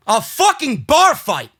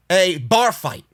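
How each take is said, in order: First: "A fucking bar fight" slower and louder, stress on "bar"; disbelieving emphasis. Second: Said in the usual way. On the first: Real, not acted. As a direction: hit "bar" hard, stretch "A fucking bar fight" out in disgust.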